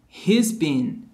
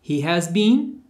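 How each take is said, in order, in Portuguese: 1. O has encolhe para um s unido ao he. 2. A palavra has é dita completa e separada.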